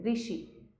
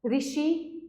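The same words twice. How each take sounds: First: Said in the usual way. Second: ऋषि with the wrong initial r syllable, drawn out; slow, softer ऋषि; wrong r sound. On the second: Shown as a demonstration. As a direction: stretch ऋषि slowly. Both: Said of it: "इसमें री आता है".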